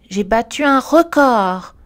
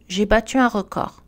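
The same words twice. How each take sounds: First: "J'ai battu un record" slow and loud, swelling on "record"; emphatic, drawn-out "record"; emotional stress. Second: Said in the usual way. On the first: Shown as a demonstration. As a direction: exclaim it, stretching "record" with force. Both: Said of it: "changera seulement le message émotionnel".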